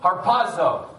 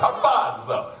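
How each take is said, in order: First: It is said in a plain, non-Italian way. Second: It is said in an Italian-style accent.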